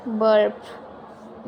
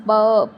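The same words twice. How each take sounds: First: ਬਰਪ with an audible R before the P; wrong pronunciation demo. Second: ਬਰਪ with a silent R, loud; correct pronunciation demo. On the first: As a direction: sound out the R in ਬਰਪ. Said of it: "ਬਰਪ ਨਹੀਂ". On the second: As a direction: drop the R in ਬਰਪ, long vowel into P. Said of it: "ਇਹਨੂੰ ਆਪਾਂ ਬਰਪ ਨਹੀਂ ਕਹਿਣਾ". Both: Shown as a demonstration.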